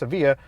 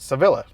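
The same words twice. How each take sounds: First: The double L is said as a Y sound. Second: The double L is said as an L sound. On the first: The speaker calls it right. "now you learn that it's pronounced Sevilla" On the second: The speaker calls it wrong. "I'm pretty stupid and I would have pronounced it Sevilla"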